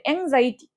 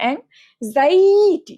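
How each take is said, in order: First: Said in the usual way. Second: anxiety with the middle vowel pulled long and loud; anxiety drawn out. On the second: Shown as a demonstration. Teacher showing students the hidden letter, anxiety stretched hard in the middle. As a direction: stretch the জাই in anxiety, high and forceful. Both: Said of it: "এটা একটু জোরে টান দে".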